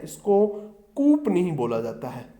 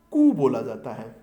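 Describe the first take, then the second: First: "कूप" said wrongly with the final p sounded; "कूप" with a clear p at the end, as the wrong form; wrong pronunciation. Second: "कू" said as koo with no final p; "कू" with a long oo and the p left silent; correct pronunciation. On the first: ("कूप" को गलत उच्चारण में, आख़िरी प साफ़ बोलते हुए) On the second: ("कू" सही उच्चारण में, बिना प के) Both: Shown as a demonstration. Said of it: "इसका सही प्रोनाउंसिएशन देखिएगा".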